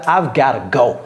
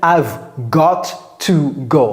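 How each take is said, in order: First: 'Got to' is blended into one reduced word. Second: 'Got to' is said as two full words. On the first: "Vous voyez comment j'ai prononcé ça?" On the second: "J'ai pas dit"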